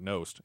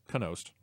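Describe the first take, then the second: First: The name begins with a plain N sound. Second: The name begins with a K sound before N. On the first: The speaker calls it wrong. "I've been always pronouncing it Nost" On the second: The speaker calls it right. "It's Knost. Kind of like canals"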